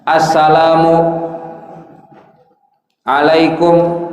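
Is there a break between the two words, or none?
break. There is a break between the two words. The speaker calls it wrong. "nggak boleh ada pemisah"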